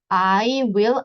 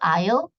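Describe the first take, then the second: First: Both words are said in full, separately. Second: The words are shortened into one syllable.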